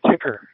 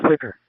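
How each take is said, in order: First: "ticker" with a hard t in place of th; accented th. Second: Said in the usual way. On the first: Shown as a demonstration. Showing how his people say thicker, th turned into t. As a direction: say "ticker", dropping the th sound for a plain t. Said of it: "we would normally say ticker". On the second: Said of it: "instead of saying thicker".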